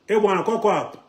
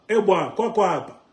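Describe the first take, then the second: No difference in how they are said.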